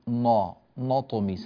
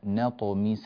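First: The n sound is heavy and darkened. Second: The n sound is light and thin. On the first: The speaker calls it wrong. "فبعض الناس يقول نطمس، لا" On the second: The speaker calls it right. "هكذا بترقيق هذه النون"

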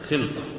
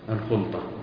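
First: The first consonant is followed by an i vowel. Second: The first consonant is followed by a u vowel. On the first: It means companionship among friends. "وبكسرها العشرة" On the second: It means a partnership in property. "بضم الخاء الشركة"

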